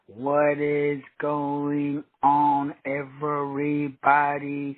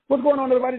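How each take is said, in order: First: It is said slowly. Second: It is said fast.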